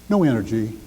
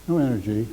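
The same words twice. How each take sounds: No difference in how they are said.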